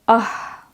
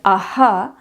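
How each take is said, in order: First: It ends in a short puff of breath. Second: It ends with an added 'ha' syllable. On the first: The speaker calls it right. "the right pronunciation of visarga" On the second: The speaker calls it wrong. "In South India, we pronounce it as aha, which is not the right way"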